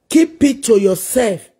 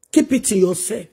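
First: Slower and firmer, each word weighed; a stern second warning to Facebook show-offs; firm repeat. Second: Said in the usual way. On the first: Real, not acted. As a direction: drive the warning home slowly.

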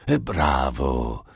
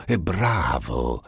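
First: È bravo lento, con È allungato e calante; beffardo. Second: È bravo! lento, con È marcato; beffardo. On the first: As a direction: voce diversa, lenta e canzonatoria su È bravo. (il diavolo deride Einstein, lento e beffardo) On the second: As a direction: ripeti È bravo! lento e canzonatorio. (il diavolo ribadisce, lento e beffardo) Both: Acted. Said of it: "gridò Iblis".

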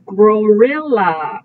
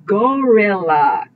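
First: Gorilla said as grorilla, with an extra r after the g; teacher says Gorilla with a silly gr- start, grorilla; nonsense version. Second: Gorilla said cleanly, plain g with no r; teacher gives the right word gorilla, plain g start; correct version. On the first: Teacher models the wrong nonsense word for the class, saying grorilla. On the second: Teacher corrects the nonsense word for the class, saying gorilla clearly. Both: Shown as a demonstration. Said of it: "Not gorilla".

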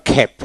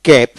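First: খ্যাপ with a puff of air after the k; phonetic aspirated k. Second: ক্যাপ with a hard k and no puff; unaspirated k. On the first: Teacher contrasting two pronunciations, aspirated k. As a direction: release the k of খ্যাপ with breath. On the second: Teacher contrasting two pronunciations, unaspirated k. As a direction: keep the k of ক্যাপ free of breath. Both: Shown as a demonstration. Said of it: "phonetic ঠু উচ্চারিত হয়".

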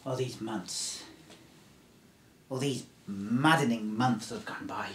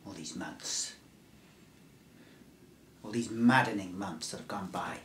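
First: Said in the usual way. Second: Hushed whisper on maddening months; whispered take. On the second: Shown as a demonstration. Survivor whispering his first take to the stranger. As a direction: breathe the line as a secret. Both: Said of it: "I'll do that again".

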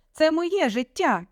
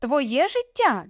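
First: High, slow defiant cry; shouting. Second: High, slow indignant question; incredulous echo. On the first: Daughter claiming her life from parents, shouting. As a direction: stretch it out as a heated protest. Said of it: "теж почала кричати". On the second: Father mocking daughter's claim, incredulous. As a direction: drag out the question in disbelief. Father throws her words back. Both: A narrator's reading.

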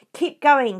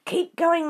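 First: Loud, high bellow to the crew; shouting. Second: High, louder breathless urging; Mister Fox panting his encouragement. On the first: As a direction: yell orders over the engines. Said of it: "the fat Bogus shouted". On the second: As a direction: urge them on while short of breath. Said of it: "panted Mister Fox". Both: A narrator's reading.

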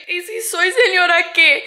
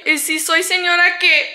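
First: Stronger defiance. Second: Louder high sassy comeback in Spanish; defiant sass. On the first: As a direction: repeat it higher, leaning on señora. Repeats retort with more punch. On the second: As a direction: fire it back, so what. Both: Real, not acted.

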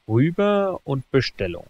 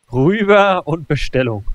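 First: Said in the usual way. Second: Said louder and more firmly the second time; louder repeat. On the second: Real, not acted. Gamer repeating his order to himself, louder. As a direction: push the order through with emphasis.

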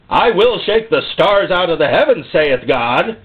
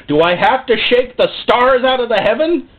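First: Firm statement falling on HEAVEN; declared with a falling close on HEAVEN; solemn declaration. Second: High rhetorical question ending upward on HEAVEN; exasperated question. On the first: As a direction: proclaim it like a prophet, HEAVEN coming down. God answers own question with declaration. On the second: God asking exasperated rhetorical question. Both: Acted.

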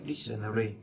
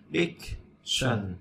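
First: Said in the usual way. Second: Dictionary said slowly, each syllable spaced out; slow syllable demo. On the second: Shown as a demonstration. Teacher spelling out Dictionary syllable by syllable, slowly. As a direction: break Dictionary into slow, separate syllables for the class. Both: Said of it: "Dic là y ngắn".

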